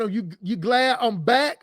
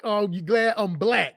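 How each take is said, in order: First: "back" said with a plain b, no l; "back" as in returning, not "black"; quoting the comment, "back" without the l. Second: "black" with a clear b-l start; "black" as in the colour, l sounded; quoting the comment, "black" with the l. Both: Retold or imitated. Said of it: "even if you didn't meant to say it like that".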